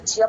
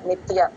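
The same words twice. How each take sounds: First: The middle sound comes out close to ch. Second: The middle sound is a clear t before ya. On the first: The speaker calls it wrong. "వినే వాళ్ళకి మాత్రం చకారం వినిపిస్తుంది" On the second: The speaker calls it right. "నిత్ plus య నిత్య"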